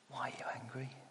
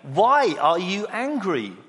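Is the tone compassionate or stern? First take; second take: compassionate; stern. First: The voice sounds gentle and caring. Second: The voice sounds stern and demanding. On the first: God is appealing to Cain and offering him a chance to change. "I just wonder whether there was compassion in his voice" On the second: God is harsh and wants a straight answer. "Just answer the question. But interestingly, I said it in a certain way"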